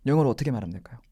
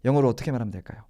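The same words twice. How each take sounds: The two takes are said the same way.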